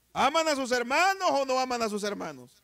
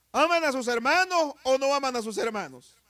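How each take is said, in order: The two takes are said the same way.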